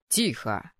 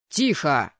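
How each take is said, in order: First: Low, unraised command from the dean; calling to order. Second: Loud, low bark; barked order. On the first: Dean calls laughing boys to order, low and controlled. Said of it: "призвал парней к порядку". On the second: Dean silences the excited students, barking. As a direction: cut the noise with one sharp shout. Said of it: "гаркнул декан". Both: A narrator's reading.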